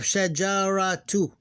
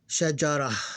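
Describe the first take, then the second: First: The word ends with a full -tu syllable. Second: The word ends on a plain vowel. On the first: This is the full form of the word. "That's the original word" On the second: The word comes before a stop. "We ignore the vowel and it will become shajara"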